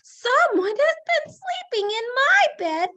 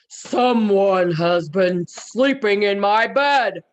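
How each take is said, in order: First: It is said in a wee little voice. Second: It is said in a great big voice.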